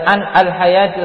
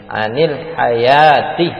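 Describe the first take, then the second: First: The n stands apart from the following al. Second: The n takes an i vowel, joining the next word. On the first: The speaker calls it wrong. "kalau enggak dibaca an al hayati ustaz" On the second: The speaker calls it right. "maka harus dikasrohkan nunnya nih. Anil hayati dibaca seperti itu"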